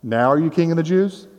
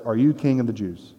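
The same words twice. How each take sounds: First: Sincere, challenging question with a rising end; earnest challenge. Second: Doubting, sarcastic question, a bit softer; sarcastic Pilate doubting the prisoner. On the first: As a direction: press him for a real answer, no sarcasm. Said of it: "not saying this sarcastically, but more like". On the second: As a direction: ask it with scorn and disbelief. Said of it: "you can hear the doubt or even the sarcasm". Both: Shown as a demonstration.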